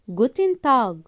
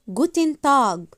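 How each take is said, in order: The two takes are said the same way.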